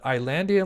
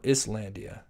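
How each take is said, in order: First: The first syllable sounds like 'eye', s silent. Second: The first syllable sounds like 'iss', s pronounced. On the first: "like island" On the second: "Does it have an is?"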